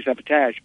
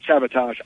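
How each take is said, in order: First: "sabotage" ending in a flat "-tadge". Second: "sabotage" ending in an open "-tahzh". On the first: Fan quoting Shatner's insistence, "sabotage" said "-tadge". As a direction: say "sabotage" with the a of "cat" at the end. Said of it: "I say "sabotage". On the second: Fan quoting Shatner's retort, "sabotage" said "-tahzh". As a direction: say "sabotage" with the a of "father" at the end. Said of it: "say "sabotage," I say "sabotage". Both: Retold or imitated.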